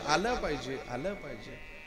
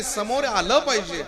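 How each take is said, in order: First: Echo. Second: Said in the usual way. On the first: Shown as a demonstration. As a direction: bounce आलं पाहिजे back and fade it out. (आलं पाहिजे चा विरत जाणारा प्रतिध्वनी) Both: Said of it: "ती फक्त शेवटचा शब्द उच्चारायची".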